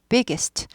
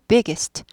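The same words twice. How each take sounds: The two takes are said the same way.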